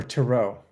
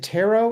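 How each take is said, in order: First: Tarot said as tuh-ROH; tuh-ROH pronunciation. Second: Tarot said as TAIR-oh; TAIR-oh pronunciation. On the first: Co-host offering the fancier option, tarot as tuh-ROH. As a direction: stress the second syllable of tarot, tuh-ROH. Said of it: "if you're fancy". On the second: Co-host asking which way to say it, tarot as TAIR-oh. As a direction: stress the first syllable of tarot, TAIR-oh. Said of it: "I commonly hear tarot". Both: Shown as a demonstration.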